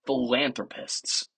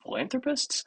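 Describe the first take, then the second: First: Said in the usual way. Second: PHILANTHROPISTS much higher, rising into a question; "Philanthropists?" as a doubtful high-pitched question; self-questioning repeat. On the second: Real, not acted. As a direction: query your own word "Philanthropists" with a high, softer upturn. Questions own word choice.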